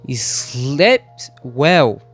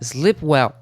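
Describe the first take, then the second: First: The final T of slept is clearly pronounced. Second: The final T of slept is dropped. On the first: The speaker calls it wrong. "Agora eu enfatizei o som do T" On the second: The speaker calls it right. "Mas não tem esse som do T"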